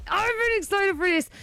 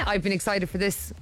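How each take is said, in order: First: High and bright, stress on been; excited. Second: Said in the usual way. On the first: Real, not acted. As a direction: lift it, really eager.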